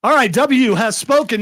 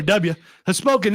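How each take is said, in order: First: Said in the usual way. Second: "W" said as "Dubya"; corrected nickname. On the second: Real, not acted. Host correcting himself before lightning round, "W" said as "Dubya". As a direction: say "W" Texas-style, "DUB-ya".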